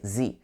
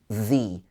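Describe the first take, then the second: First: The first sound is not a th sound. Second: The first sound is a th sound. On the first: The speaker calls it wrong. "a lot of French speakers might say the" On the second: The speaker calls it right. "it should be the, the tongue uh, towards the front of your mouth"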